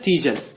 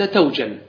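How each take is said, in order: First: The first syllable has the vowel "i". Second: The first syllable has the vowel "a". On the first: This is a permitted dialect form of the Tamim tribe. The speaker calls it wrong. "كسر حرف المضارعة ... وهذه لغة تميم" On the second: This is the standard, more eloquent form. The speaker calls it right. "فتح حرف المضارعة وهو الأصل فتقول أنت توجل"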